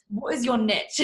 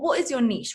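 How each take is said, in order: First: Niche is said in an American accent. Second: Niche is said in her usual accent.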